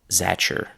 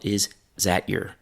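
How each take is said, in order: First: T and y merge into ch, giving zatcher. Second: The vowel of is drops, giving zat yer. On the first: This is the most casual form. "the t and the y sounds have mixed into a ch sound" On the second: This is less formal still. "the short I of is has disappeared"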